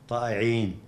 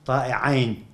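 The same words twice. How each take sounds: First: Said in the usual way. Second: طائعين ending in "-ayn", not "-een"; dual ending -ayn. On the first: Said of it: "المفسرون يقولون لم يقل". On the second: Shown as a demonstration. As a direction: say طائعين as a dual, with a diphthong "ay" before the n. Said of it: "يقولون لم يقل". (طائعين بصيغة المثنى، بفتح العين وتسكين الياء)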